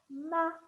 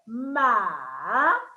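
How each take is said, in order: First: The syllable is said in the fifth tone. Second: The syllable is said in the third tone. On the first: "And the fifth one" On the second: "The third tone"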